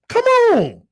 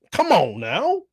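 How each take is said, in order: First: High, stretched admiring come on; admiring doctors. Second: Said in the usual way. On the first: Retold or imitated. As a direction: doctors impressed by the driver. Doctors reacting to driver.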